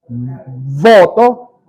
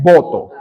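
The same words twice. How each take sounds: First: VOTO with a buzzing lip-to-teeth V; marked V. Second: VOTO said as "boto", both lips closing for B; plain B. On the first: Teacher marking Venezuelan V against B, voto with buzzing V. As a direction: lean on the V of voto, top teeth on lower lip. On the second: Teacher contrasting B with V, voto said as boto. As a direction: make voto start with a lip-popped B. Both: Shown as a demonstration. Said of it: "yo marco la diferencia".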